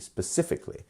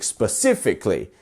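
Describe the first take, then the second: First: The stressed syllable is toned down and natural. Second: The stressed syllable is strongly exaggerated and dramatic. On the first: "and then lowering it down" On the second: "You can go from it being very dramatic"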